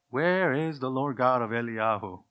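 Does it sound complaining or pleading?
complaining. It sounds like a doubting complaint.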